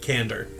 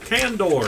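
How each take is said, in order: First: The word is said in its ordinary way. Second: The word is said like a sci-fi name.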